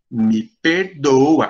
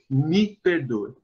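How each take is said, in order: First: It is said in a mocking, insincere tone. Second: It is said in a sincere, earnest tone.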